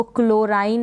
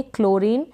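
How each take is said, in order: First: क्लोराइन ending in "rain" with a long i diphthong; wrong "-ine" pronunciation. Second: क्लोरीन ending in a long "reen"; correct "-een" pronunciation. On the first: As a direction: misread it as "klo-rain", क्लोराइन. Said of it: "क्लोराइन नहीं पढ़ेंगे". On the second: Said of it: "नहीं पढ़ेंगे, क्लोरीन". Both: Shown as a demonstration.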